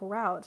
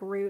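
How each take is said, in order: First: It is said the Southeastern US way. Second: It is said the Northeastern US way.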